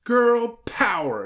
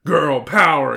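First: High, slow, loud cheer; exclaiming little girl. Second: Loud, punchy cheer; exclaimed rallying cry. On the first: Hilary raises her fists, exclaiming. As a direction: stretch it into a girlish rallying cry. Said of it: "exclaimed Hilary". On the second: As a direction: belt it out, pitch a little raised. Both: A narrator's reading.

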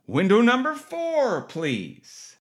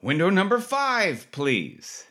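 First: High sing-song call of window number, dropping off at please; nurse calling out. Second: High sing-song call of window number, dropping at please; nurse calling out. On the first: Triage nurse calling next patient. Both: Retold or imitated.

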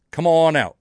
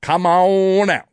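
First: Unintended, faintly put-on Kentucky twang, higher and louder; half Australian, half Southern accent by accident; accidental Kentucky accent. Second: Loud, high, long-drawn botched Kentucky accent; exaggerated replay of a bad Kentucky accent; mock Australian-Southern accent. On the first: Real, not acted. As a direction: slip into a botched Kentucky accent on "come on out". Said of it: "sounded like I was trying to do a Kentucky accent".

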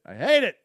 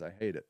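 First: Louder, higher burst of "I hate it"; emphatic. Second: Lower, softer muttered "I hate it"; quiet. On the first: Speaker on homeless women in the woods, louder and emphatic. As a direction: punch out "I hate it" with force. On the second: Speaker on homeless women in the woods, soft and low. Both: Real, not acted.

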